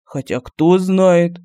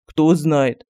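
First: Very slow, drawn-out "Хотя кто знает"; slow musing. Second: Lower, falling "кто знает" fading away; trailing off. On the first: Medallion musing to itself, very slow and drawn out. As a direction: let it linger, unsure. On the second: Medallion trailing off its thought, lower and falling. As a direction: let it die off with a falling tune. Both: A narrator's reading. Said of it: "задумчиво сказал Мар".

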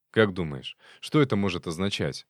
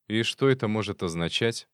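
First: Said in the usual way. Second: Mock echo of the question; mimicking tone. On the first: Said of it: "в тон ему спросил". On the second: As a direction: parrot his tone back. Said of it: "в тон ему спросил фольклорист".

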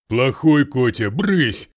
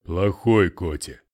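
First: Loud, high scolding yell; shouting. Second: Sulky. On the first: The bitten Russian yells at the cat, loud. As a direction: shout the cat off your hand. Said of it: "закричала жертва". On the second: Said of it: "обиженно надулся". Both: A narrator's reading.

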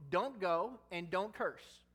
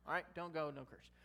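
First: Slow, every word of "don't go and don't curse" hammered; spelled-out command. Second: Said in the usual way. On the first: Shown as a demonstration. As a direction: lay down "don't go and don't curse" like a rule. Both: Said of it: "it's pretty cut and dry".

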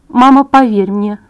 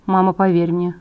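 First: Slow pleading assurance. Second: Said in the usual way. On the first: A narrator's reading. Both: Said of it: "А теперь скажи".

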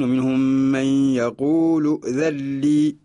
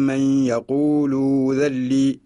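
First: Slow recitation "ومنهم من يقول ذا لي" with nun merged into lam. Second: Slow demo of "ذا لي" with the noun merged into a doubled lam; drawn-out "يقول ذا لي" with no n sound, lam doubled. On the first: Teacher recites Qalun's reading slowly for students. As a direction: chant "ذا لي" as "ذا لّي", doubled lam, no n. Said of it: "يقرأ قالون". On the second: Teacher slowly shows students the merged nun in "ذا لي". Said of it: "نقول". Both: Shown as a demonstration.

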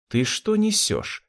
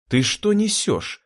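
First: High, slow indignant retort; flashing anger. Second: High, slow indignant cry; angry exclamation. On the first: Anne angry at Rudy's cruel words, indignant retort. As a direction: throw it back slowly in outrage. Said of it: "сверкнула глазами Энн". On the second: Anne angry at Jurgen asking to be killed, indignant cry. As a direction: demand it slowly in outrage. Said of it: "гневно воскликнула Энн". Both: Acted.

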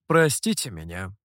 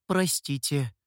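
First: Low, gracious apology; magnanimous apology. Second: Said in the usual way. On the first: A narrator's reading. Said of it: "великодушно извинился тёмный". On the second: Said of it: "ретировался".

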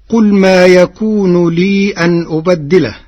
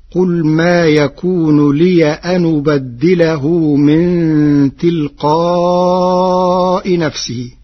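First: Said in the usual way. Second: لي read as liya with the ya opened, and أن read as anu badilahu, carrying the hamza's vowel onto the n; Warsh reading. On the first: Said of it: "قرأ ورش "ما يكون لي أن أبدله". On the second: Shown as a demonstration. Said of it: "بفتح ياء الإضافة وبنقل حركة الهمز". (قراءة ورش: لِيَ أَنُ بدّله بنقل حركة الهمز)

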